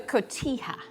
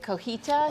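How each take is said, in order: First: The word ends with a 'ha' sound. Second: The word ends with a 'ta' sound. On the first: The speaker calls it right. "it's pronounced cotija" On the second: The speaker calls it wrong. "most people mispronounce it and say cojita"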